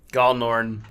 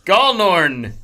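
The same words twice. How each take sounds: First: Said in the usual way. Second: Gallnorn sounded out, loud and high; sounding out words. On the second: Acted. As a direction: spell out Gallnorn, syllable by syllable, loudly. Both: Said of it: "wait, that's something else".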